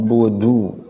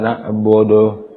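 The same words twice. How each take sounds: First: The u vowel is said with fully rounded lips. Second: The u vowel is said with weakly rounded lips. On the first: The speaker calls it right. "mulutnya dimonyongkan atau dimecucukan mulutnya sehingga harokat dhammah terdengar sempurna" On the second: The speaker calls it wrong. "kalau tidak disempurnakan"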